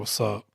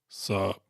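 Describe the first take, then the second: First: Both words are said fully and distinctly. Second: The phrase is squeezed into one quick syllable.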